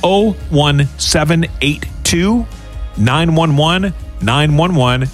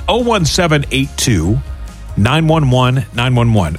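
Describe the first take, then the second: First: The number is said slowly. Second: The number is said fast.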